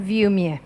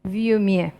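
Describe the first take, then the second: First: It is said quickly with the middle sound skipped. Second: The same.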